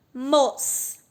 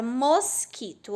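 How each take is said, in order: First: Mosquito broken into MOS, QUI, TO with pauses; syllable by syllable. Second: Said in the usual way. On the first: Shown as a demonstration. Teacher counting mouth openings with pupils, Mosquito split into mos-qui-to. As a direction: sound out Mosquito, each syllable on its own. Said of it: "Três vezes que eu abri e fechei a boca". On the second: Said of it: "A palavra mosquito".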